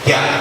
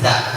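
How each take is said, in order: First: The consonant is a 'j' from the tongue middle. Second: The consonant sounds like 'z' from the tongue tip. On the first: The speaker calls it right. "tengah lidah tempelkan ke atas ke langit-langitnya" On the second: The speaker calls it wrong. "Jangan dengan ujung lidah"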